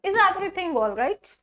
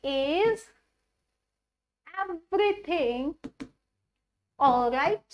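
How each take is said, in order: First: Slow rising question, words joined; slow demo. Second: Very slow with long pauses between words; slow dictation. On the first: Teacher repeating the question in one flow, slow. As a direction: model the whole question slowly. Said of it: "ठीक है". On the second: Teacher dictating the question to students, very slow. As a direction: spell out each word with gaps. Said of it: "उसको हम बोलेंगे जी". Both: Shown as a demonstration.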